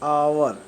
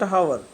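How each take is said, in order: First: The word starts with a vowel, no h sound. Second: The word starts with a clear h sound. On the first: The speaker calls it right. "एच is the silent" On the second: The speaker calls it wrong. "Not"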